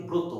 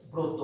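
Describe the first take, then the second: First: ব্রত said with o sounds, bro-to; correct pronunciation demo. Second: ব্রত said with an open অ, brawt; wrong pronunciation demo. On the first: Teacher gives the real sound of ব্রত. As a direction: model ব্রত with both vowels rounded. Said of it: "আমরা বলি ব্রত". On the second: Teacher shows the sound of ব্রত to avoid. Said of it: "এইভাবে উচ্চারণ করি না". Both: Shown as a demonstration.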